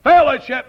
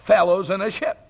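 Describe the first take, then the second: First: "Fellowship" said as a single firm word; earnest "Fellowship", no pun; one word. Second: "Fellows in a ship" pulled apart into three words; mock pun on "Fellows in a ship", each word spaced; split pun. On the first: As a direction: hit "Fellowship" as one solid word, louder. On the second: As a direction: say "Fellows in a ship" as separate words, rising at the end. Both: Shown as a demonstration. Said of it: "It's nothing to do with fellowship".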